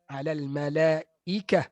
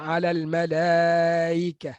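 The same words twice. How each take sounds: First: The glottal stop is pronounced fully and clearly. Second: The glottal stop is softened toward a vowel. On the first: The speaker calls it right. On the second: The speaker calls it wrong.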